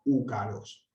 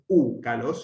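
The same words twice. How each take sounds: First: Úcalos joined, unstressed ú leaning onto calós; correct proclitic. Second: Úcalos with a separate, stressed ú at the front; wrongly accented proclitic. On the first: Teacher gives the right version, úcalos as one word. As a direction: let ú slide into the accented los of úcalos. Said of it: "sino úcalos". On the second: Teacher shows what it is not, úcalos stressed on ú. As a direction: hit the ú of úcalos as its own word. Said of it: "no es úcalos". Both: Shown as a demonstration.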